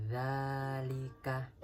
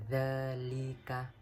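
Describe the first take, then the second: The two takes are said the same way.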